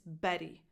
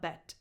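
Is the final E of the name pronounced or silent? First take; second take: pronounced; silent. First: The name ends with a tense E vowel. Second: The name ends without a final vowel. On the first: The speaker calls it right. "pronounced with a tense E at the end" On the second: The speaker calls it wrong. "It's not a silent vowel. It's not bet"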